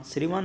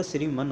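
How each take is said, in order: First: श्रीमान with long "maan"; incorrect form. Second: श्रीमन with short "man"; corrected form. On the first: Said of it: "श्रीमान नहीं होता". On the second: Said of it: "श्रीमन होता है". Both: Shown as a demonstration.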